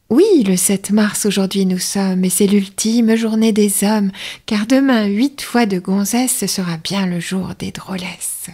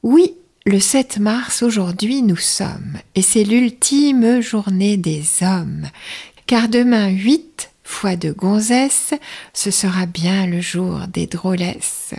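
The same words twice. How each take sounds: First: Quicker, brisker take of the verse; slightly faster announcer read; a bit faster. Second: Slow, unhurried verse reading; slow, savouring announcer read; slow take. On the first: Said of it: "ça va un peu plus vite". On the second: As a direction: let each line breathe, take your time. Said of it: "je vais vous faire vite et pas vite". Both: Shown as a demonstration.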